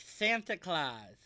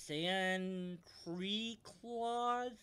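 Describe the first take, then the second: First: Santa Claus, slow and clear; correct pronunciation. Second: San Cree Claus, slow and drawn out; mispronounced Santa Claus. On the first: Shown as a demonstration. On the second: Acted. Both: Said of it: "it's pronounced Santa Claus".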